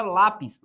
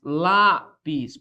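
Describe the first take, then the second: First: Said in the usual way. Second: "Lápis" split, long stressed "lá", then "pis"; syllable-by-syllable stress. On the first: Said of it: "Por que que eu acentuo a palavra lápis?". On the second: Shown as a demonstration. Teacher showing the tonic syllable, "Lápis" drawn out with stress on "lá". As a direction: break "Lápis" into lá-pis, leaning on "lá". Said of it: "lá a sílaba tônica recai sobre a penúltima".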